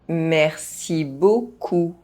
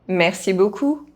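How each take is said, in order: First: The phrase is spoken at normal pace. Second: The phrase is spoken fast. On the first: This is the recommended way for learners to say it. "at a normal pace" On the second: This is how native speakers say it. "fast, as a native speaker would do"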